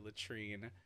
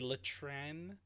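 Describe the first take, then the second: First: The name is said with an English 'treen' ending. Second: The name is said with a French nasal ending. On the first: The speaker calls it wrong. "everybody just calls her Latrine um because nobody pronounces it right" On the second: The speaker calls it right. "it's really pronounced Betty Latran"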